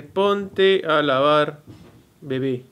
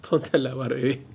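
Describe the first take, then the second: First: "Ponte a lavar, bebé" spelled out very slowly, word by word; "Ponte a lavar" drawn out word by word, "bebé" at normal speed; slow careful reading. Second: Said in the usual way. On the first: Shown as a demonstration. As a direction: read the caption slowly, word by word. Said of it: "Acá dice". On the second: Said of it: "Y acá".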